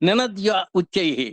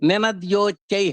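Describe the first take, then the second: First: The two words are said separately, unjoined. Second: The two words merge into one joined word. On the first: "ఈ రెండు కలిపాం" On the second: "నినద్యోచ్చై అయింది"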